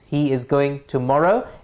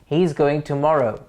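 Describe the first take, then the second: First: The pitch rises at the end. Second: The pitch falls at the end. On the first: It is a question. "It goes up" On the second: It is a statement. "drops at the end as it is making a statement"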